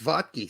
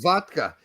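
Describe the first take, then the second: First: "vodki" said as VOD-kee, ending in ee; rejected name pronunciation. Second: "vodka" said as VOD-kuh, ending in uh; German name pronunciation. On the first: Host rejecting the Americanized surname, "vodki" pronounced with final ee. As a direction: finish "vodki" with a clear ee. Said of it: "It's not pronounced vodki". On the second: Host explaining the German surname, "vodka" pronounced with final uh. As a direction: finish "vodka" with uh, not ee. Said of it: "it's pronounced vodka". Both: Shown as a demonstration.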